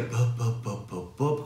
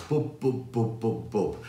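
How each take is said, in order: First: Bub pushed out loosely, cut off from the diaphragm; disconnected bub. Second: Bub with a clear B either side of the U; crisp B's. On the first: Singing teacher shows what to avoid, disconnected bub. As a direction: show the unsupported way of saying bub. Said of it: "you're disconnecting from your diaphragm". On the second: Singing teacher demonstrates the exercise, crisp B's on bub. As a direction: close each bub firmly on its final B. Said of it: "hear the B's either side". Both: Shown as a demonstration.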